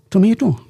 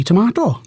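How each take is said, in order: First: Tomato with may, tuh-MAY-toe; tomato as Canadians say it, tuh-may-toh; American tomato. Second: Tomato with a broad ah, tuh-MAH-toe; tomato said as in Britain, tuh-mah-toh; British tomato. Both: Shown as a demonstration. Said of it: "which they pronounce differently".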